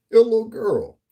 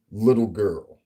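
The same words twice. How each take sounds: First: Higher, louder taunt; scornful taunt; mock little girl jab. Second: Said in the usual way. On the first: Shown as a demonstration. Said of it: "Your voice sounds like a grown adult little girl".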